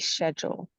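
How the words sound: It is said in a Jamaican accent. "if I was in Jamaica, I might say"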